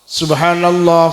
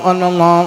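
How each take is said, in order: First: It is said clearly and carefully. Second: It is said hurriedly and mumbled.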